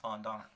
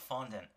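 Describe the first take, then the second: First: It is pronounced in the French way. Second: It is pronounced in an anglicized way. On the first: This follows the word's original language. The speaker calls it right. "It's a French word and the actual pronunciation is fondant" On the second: This is how other people commonly say it. The speaker calls it wrong. "they call it fondant"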